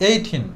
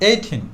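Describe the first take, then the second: The two takes are said the same way.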